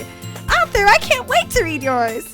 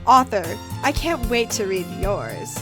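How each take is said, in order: First: It is read in a put-on Sayori voice. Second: It is read in a put-on Monika voice. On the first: The speaker calls it right. "it's Sayori" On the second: The speaker calls it wrong. "that wasn't Monica"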